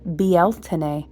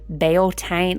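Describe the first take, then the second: First: The word is said in a lilting, elegant way. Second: The word is said in a plain, rustic way. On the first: The speaker calls it right. "it was so beautiful" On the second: The speaker calls it wrong. "that just sounds like some backwoods country"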